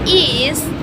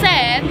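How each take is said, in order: First: The ending is an extra syllable iz. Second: The ending is a voiced z sound. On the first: "like buses" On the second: "like dogs"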